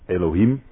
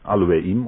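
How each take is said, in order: First: The word starts with an 'eh' sound. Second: The word starts with an 'ah' sound. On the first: The speaker calls it wrong. "het wordt vaak uitgesproken als El of Elohim" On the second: The speaker calls it right. "maar eigenlijk moet je zeggen Aloeim"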